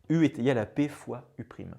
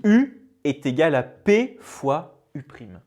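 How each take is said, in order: First: Said in the usual way. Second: Formula read slowly and louder, every term pressed; slow emphatic statement. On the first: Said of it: "Voilà". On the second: Shown as a demonstration. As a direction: present the key formula to the class with weight. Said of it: "le voici". (formule énoncée lentement, plus fort, chaque terme appuyé)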